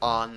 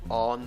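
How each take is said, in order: First: The vowel in 'on' is an open 'ah' sound. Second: The vowel in 'on' is a rounded 'aw' sound. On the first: "or with A" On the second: "you can pronounce it with O"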